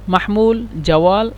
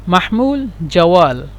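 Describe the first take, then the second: The two takes are said the same way.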